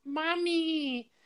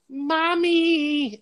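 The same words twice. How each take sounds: First: Put-on very high, softer little boy's mommy; soft kid's voice. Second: Put-on very high, small child calling for mommy; kid's voice. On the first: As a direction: whimper it quietly like a lost child. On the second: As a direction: whimper it like a frightened little boy. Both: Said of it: "in, like, a kid's voice".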